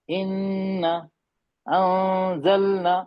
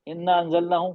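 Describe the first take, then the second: First: The nasal sound is held long. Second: The nasal sound is cut short. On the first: The speaker calls it right. "एक रिदम, एक खूबसूरती" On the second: The speaker calls it wrong. "कुछ लग रहा है खूबसूरत नहीं"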